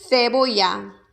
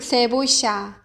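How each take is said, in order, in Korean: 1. LL은 y 소리로 나요. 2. LL은 sh 소리로 나요. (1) "스페인에서는 세보야" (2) "아르헨티나, 칠레 쪽은 세보샤"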